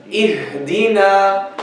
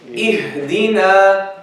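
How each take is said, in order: No difference in how they are said.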